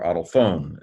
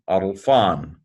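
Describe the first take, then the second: First: ADELPHONE with a long final O; long-o ending. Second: ADELPHON with a short, open final O; short-o ending. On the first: Teacher showing students their own reading, long-o ending on ADELPHONE. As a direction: end ADELPHONE like "phone". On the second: Teacher giving students one reading, open-vowel ending on ADELPHON. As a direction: end ADELPHON like "fawn". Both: Shown as a demonstration. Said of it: "is how I would say it".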